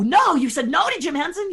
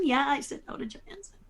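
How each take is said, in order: First: High, louder disbelieving question rising at the end; mock people's shock; incredulous. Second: Quick, softer, falling confirmation; matter-of-fact. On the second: Real, not acted. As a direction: shrug it off as obvious. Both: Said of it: "And people go".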